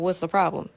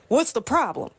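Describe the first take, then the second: First: It is said in a calm, neutral tone. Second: It is said in a sharp, confrontational tone. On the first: The speaker is simply asking what is wrong. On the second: The listener feels challenged and gets defensive.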